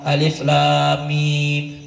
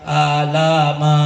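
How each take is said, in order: First: The letter names are read as alif lam mim. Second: The letters are run together as alama. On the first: The speaker calls it right. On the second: The speaker calls it wrong. "anaknya baca alama"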